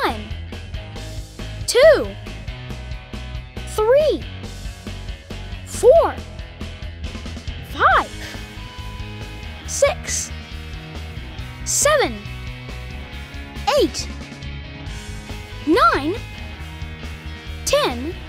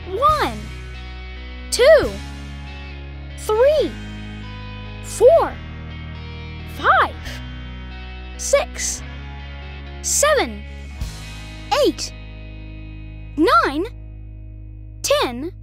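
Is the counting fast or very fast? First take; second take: fast; very fast. First: The numbers are counted fast. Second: The numbers are counted very fast.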